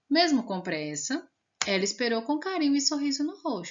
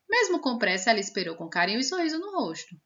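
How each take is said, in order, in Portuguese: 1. Tem uma pausa curta depois de pressa. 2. Continua sem pausa depois de pressa. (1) "Mas quando tem a vírgula, a gente tem que dar uma pausa" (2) "Sem a vírgula ficaria assim. ... Tudo de uma vez, pá, como se fosse uma corrida"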